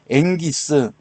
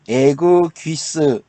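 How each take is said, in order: First: The double consonant is said as a soft 'ng'. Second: The double consonant is said as a hard 'g-g'. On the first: The speaker calls it right. "응이라고 읽어주는데 앵기스, 좀 더 부드럽게" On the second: The speaker calls it wrong. "그냥 단어대로 읽어주면은 에그 귀스, 이 발음이 이상해요"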